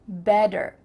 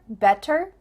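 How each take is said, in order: First: The middle t sounds like a d. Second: The middle t is a clear t.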